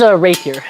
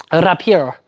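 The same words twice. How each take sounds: First: Said in the usual way. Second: "rapier" said Italian-style as "rah-pee-EH-ro"; foreign pronunciation. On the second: Shown as a demonstration. Streamer renaming the sword, "rapier" pronounced like "rapiero". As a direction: say "rapier" with foreign vowels and a final o.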